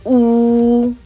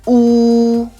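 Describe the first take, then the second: First: It starts straight on the rounded vowel. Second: It starts straight on the rounded vowel.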